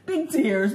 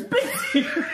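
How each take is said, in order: First: Said in the usual way. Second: Much higher, laughing through it; high laughing mimic. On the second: Mocking his comfort to his face, high and laughing. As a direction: squeak it out, cracking up. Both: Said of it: "with this toilet paper going".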